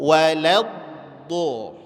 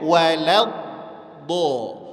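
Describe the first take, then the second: First: The first two consonants sound thin and light. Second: The first two consonants sound thin and light.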